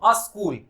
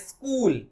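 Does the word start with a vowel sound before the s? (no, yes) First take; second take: yes; no. First: A short vowel is added before the s. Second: The word starts directly with the s sound. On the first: The speaker calls it wrong. "अस्कूल बोलते हैं वो, ... incorrect pronunciation" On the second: The speaker calls it right. "ऐसा आधा स और क, ऐसा pronounce होना चाहिए"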